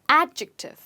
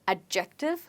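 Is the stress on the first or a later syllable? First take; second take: first; later. First: The stress is on the first syllable. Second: The stress is not on the first syllable. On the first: The speaker calls it right. "And the stress is on a" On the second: The speaker calls it wrong. "it's not adjective"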